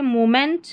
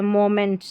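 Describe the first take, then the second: First: मोमेंट pronounced "moo-ment"; long u opening मोमेंट; taught "moo" opening. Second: मोमेंट starting "mo", with an o; wrong first vowel. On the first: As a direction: say मोमेंट with "oo" in the first syllable. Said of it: "मू पढ़ा जा रहा है". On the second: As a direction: say मोमेंट as "mo-ment". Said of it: "मो नहीं पढ़ रहे". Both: Shown as a demonstration.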